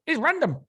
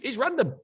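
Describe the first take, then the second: First: Hammed-up peak of the scoffing boss; mocking the boss, building. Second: Higher, scoffing "random"; mock dismissive "It's random"; mocking the boss. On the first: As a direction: push the word "random" up into a mock squeal. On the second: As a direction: toss it off like it's obvious. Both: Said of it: "And he's like".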